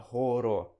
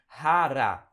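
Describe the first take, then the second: First: "хоро" with o read as o; wrong spelling-pronunciation. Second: "хара" loud, both vowels as a. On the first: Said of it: "você não vai falar". ("хоро" com O fechado, o jeito errado) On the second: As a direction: say "хара", open a sounds. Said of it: "letra O muitas vezes vai ter som de A". ("хара", com som de A) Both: Shown as a demonstration.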